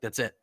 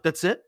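First: "That's it" as a level statement; matter-of-fact answer. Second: "That's it?" rising high and louder; questioning. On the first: Prankster confirms the orders to his crew, matter-of-fact. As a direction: land "it" without any questioning lift. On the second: Deckies check their simple orders, questioning. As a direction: lift "it" into a surprised question. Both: Retold or imitated.

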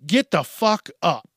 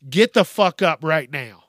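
First: Said in the usual way. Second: Third time, now louder and fed up; fed-up louder order after asking three times; louder final demand. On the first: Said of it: "after I had to say it". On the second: Shown as a demonstration. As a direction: bark the last warning, louder. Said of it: "after I had to say it, like, three times".

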